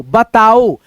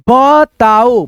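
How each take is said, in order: First: बताओ said "batao" with a short a in the first syllable; correct reading. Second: बताओ read as "baatao" with a long aa in the first syllable; wrong reading. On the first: Teacher gives students the correct reading, short a in बताओ. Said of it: "बताओ होता है". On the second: Teacher shows students the wrong reading, long aa in बताओ. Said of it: "यहाँ पे आ की मात्रा गलत साउंड कर रहा है". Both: Shown as a demonstration.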